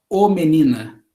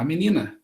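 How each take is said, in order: First: "ô menina" said with a rounded open ô in place of the article; wrong article form. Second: "a menina" with a plain unstressed a as the article; correct article form. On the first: Teacher showing the article form speakers never use. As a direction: say "ô menina" as the form nobody uses, ô long and stressed. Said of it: "A gente não fala". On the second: Teacher showing the natural article form. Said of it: "a gente fala". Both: Shown as a demonstration.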